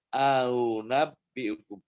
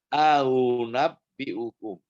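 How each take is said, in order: No difference in how they are said.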